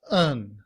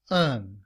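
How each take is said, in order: First: The word is shortened to a weak un sound. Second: The same.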